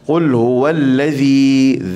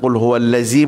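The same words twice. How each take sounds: First: The consonant is a dh between the teeth. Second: The consonant is a plain z sound. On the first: The speaker calls it right. "hujung lidah, hujung gigi ya" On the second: The speaker calls it wrong. "jangan qul huwallazi pula"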